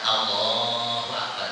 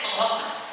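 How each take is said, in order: First: The phrase is said at a moderate, even length. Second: The phrase is cut very short and abrupt. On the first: The speaker calls it right. "biasa saja" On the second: The speaker calls it wrong. "kebangetan pendek"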